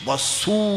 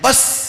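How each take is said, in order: First: The word ends with an added u vowel. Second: The word ends in the consonant s. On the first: This is the Kannada form of the word. "ಬಸ್ಸೂ ಅಂದರೆ Kannada" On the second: This is the English word. "ಬಸ್ ಅಂದರೆ English"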